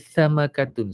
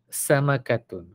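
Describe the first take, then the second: First: The first sound is a th, tongue between teeth. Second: The first sound is a thin, airy s. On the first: The speaker calls it wrong. "Kalau gigit lidah jadi samakatun. Salah" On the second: The speaker calls it right. "Sin ini dia nipis dan berangin"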